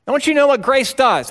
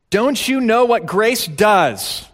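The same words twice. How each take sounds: First: High, loud, stress on you; louder insistent repeat. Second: Slow, pressing question, stress on know; slow emphatic question. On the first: Preacher repeating the question to the congregation, louder. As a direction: raise it up and hit you hard. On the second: Preacher pressing the congregation, slow and emphatic. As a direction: ask it slowly, leaning on know. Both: Shown as a demonstration.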